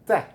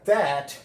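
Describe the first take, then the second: First: The vowel is reduced to a weak schwa. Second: The vowel is a full open vowel. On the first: "por razones de fluidez vamos a pronunciarlo the" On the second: "sería that"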